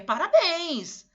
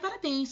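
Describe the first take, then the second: First: It is said with joyful, festive energy. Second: It is said flatly, without enthusiasm. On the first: The speaker calls it right. "com um tom de voz festeiro" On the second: The speaker calls it wrong. "Não é para falar"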